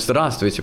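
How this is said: The full greeting is said in an open, warm way. The greeter is sincerely and nobly polite. "вот открыто"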